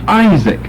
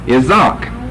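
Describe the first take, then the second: First: The stress falls on the first syllable. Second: The stress falls on a later syllable. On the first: This is the English pronunciation. "We shift the accent to the first syllable" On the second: This is the Greek pronunciation. "And the accent is over here, in the Greek"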